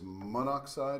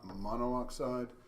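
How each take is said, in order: First: The prefix vowel is dropped before oxide. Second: The prefix vowel is kept before oxide. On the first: The speaker calls it right. "it is monoxide" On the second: The speaker calls it wrong. "not monoxide"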